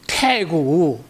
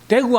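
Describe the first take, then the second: First: The word begins with a breathy T sound. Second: The word begins with a soft D sound. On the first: The speaker calls it wrong. "대구 안 되고 태구" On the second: The speaker calls it right. "대구 하면 될 것 같다가"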